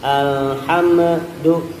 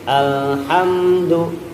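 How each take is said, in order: First: The m is released with a bounce. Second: The m is held without a bounce. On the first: The speaker calls it wrong. "mimnya jangan dipantulin juga, jangan alhamdu" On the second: The speaker calls it right. "tapi alhamdu"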